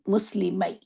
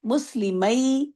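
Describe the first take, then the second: First: Said in the usual way. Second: مسلمئی drawn out slowly, each syllable clear; slow demo word. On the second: Shown as a demonstration. Teacher models the word for students, slow and clear. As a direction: spell مسلمئی out slowly for the class. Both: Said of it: "تو ہم کو لکھنا ہوگا".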